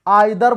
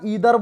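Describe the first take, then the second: First: The first vowel sounds like 'eye'. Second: The first vowel sounds like 'ee'. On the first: "आइदर बोलो या ईदर बोलो" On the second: "बात एक ही है"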